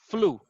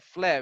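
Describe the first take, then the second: First: The word ends with an oo vowel. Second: The word ends without an oo vowel. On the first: The speaker calls it right. "It's pronounced like ooh" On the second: The speaker calls it wrong. "So you don't say like like flev flev"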